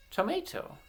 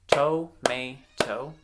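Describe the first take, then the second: First: Said in the usual way. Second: "Tomato" slowly split as to, may, to; syllable by syllable. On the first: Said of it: "blend them together". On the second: Shown as a demonstration. Teacher clapping out words for children to blend, syllable by syllable. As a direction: break "Tomato" into three separate beats. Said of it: "I'm gonna clap out".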